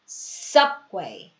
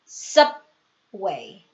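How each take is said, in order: The two takes are said the same way.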